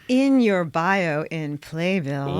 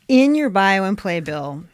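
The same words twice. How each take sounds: First: It is said slowly and deliberately. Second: It is said at normal speed.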